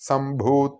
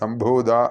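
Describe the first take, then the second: First: The last consonant is a voiceless 'ta'. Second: The last consonant is a voiced 'da'. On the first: The speaker calls it right. "തായാണ്, സംഭൂത എന്ന് തന്നെ കേൾക്കണം" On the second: The speaker calls it wrong. "ദായല്ല, സംഭൂത എന്നല്ല"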